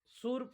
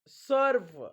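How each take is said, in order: First: The vowel sounds like 'oo' before the r. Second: The vowel sounds like 'er' before the r. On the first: The speaker calls it wrong. "सुर्प नाही" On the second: The speaker calls it right. "यूचा उच्चार अ होतो"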